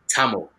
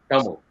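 First: It is said with plain English 't' and 'l' sounds. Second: It is said with native Tamil 'th' and 'zh' sounds. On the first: It accommodates English speakers who may not understand. The speaker calls it wrong. "fully whitewashed Tamils would say Tamil, T-A-M-I-L" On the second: It shows pride in the speaker's own culture. The speaker calls it right. "proper Tamil identified people would pronounce it as Tamil"

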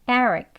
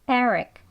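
Both takes have the same delivery.

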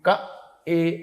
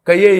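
First: The two syllables are said with no glide. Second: A y glide joins the two syllables. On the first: The speaker calls it right. "క ఏ ఇక్కడి నుంచి పలకాలి. ఏ అనాలి" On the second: The speaker calls it wrong. "ఆ ఏ అలా చదవకూడదు"

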